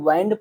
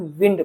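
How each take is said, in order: First: The vowel is a long 'eye' sound. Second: The vowel is a short 'ih' sound. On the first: It means to wrap or coil something. "इसे कहीं कहीं वाइंड पढ़ते हैं" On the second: It means moving air. "कहीं कहीं विंड पढ़ते हैं"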